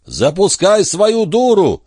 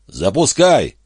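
First: Drawn-out, very high, loud yell; full-voiced, stretched-out shout. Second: Raised, high-pitched shout; shouted order from down below; calling out. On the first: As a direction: bellow the order slowly to someone far above. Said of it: "заорал он так". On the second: Acted. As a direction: call up to someone far overhead. Calls up to Эндерс from pit.

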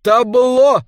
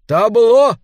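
First: Repeated shout, falling at the end. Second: Shouted stage command. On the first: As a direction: call it out again, loud and high. (громкий повторный выкрик) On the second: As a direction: yell it out high and loud. (громкий выкрик) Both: A narrator's reading. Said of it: "крикнул он".

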